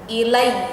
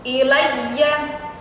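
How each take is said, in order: First: The word ends with the final vowel dropped. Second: The word ends on a sounded final vowel. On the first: The reader stops at this word. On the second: The reading continues without stopping.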